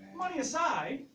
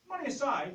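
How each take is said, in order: First: It is said with lively, expressive tone. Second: It is said in a plain, flat way.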